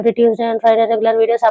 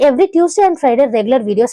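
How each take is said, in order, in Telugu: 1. Pitch మొత్తం ఒకే స్థాయిలో ఉంటుంది. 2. వాక్యం అంతటా పిచ్ పైకి కిందకి మారుతుంది. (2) "ఇట్లా రైజ్ అండ్ ఫాల్ అనేది అవుతూ ఉంటే కాన్వర్జేషన్ అనేది ఇంట్రెస్టింగ్ అవుతుంది"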